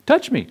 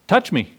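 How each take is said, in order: First: "Touch" pitched much higher, urging; "Touch" jumps up high the second time; insistent repeat. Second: Said in the usual way. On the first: Retold or imitated. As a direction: raise "Touch me" far higher, pleading to be believed.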